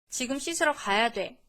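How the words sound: The voice is firm and resolute. The child understands it must be done now. The speaker calls it right. "목소리와 표정을 좀 더 단단히 해줍니다"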